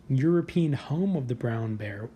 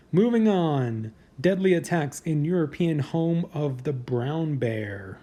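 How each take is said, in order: First: Said in the usual way. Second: Slow countdown announcer read; drawn-out list host read; headline read. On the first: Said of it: "repeats headline". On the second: Acted.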